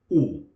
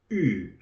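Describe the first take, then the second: First: The vowel is a plain English u sound. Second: The vowel sounds like someone about to vomit. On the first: The speaker calls it wrong. "not U" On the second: The speaker calls it right. "the sound when you are going to vomit"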